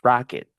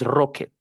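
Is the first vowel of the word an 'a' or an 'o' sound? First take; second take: a; o. First: The first vowel sounds like 'a'. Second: The first vowel sounds like 'o'. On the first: The speaker calls it right. "it's Rocket with A" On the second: The speaker calls it wrong. "No es Rocket"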